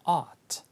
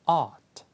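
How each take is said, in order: No difference in how they are said.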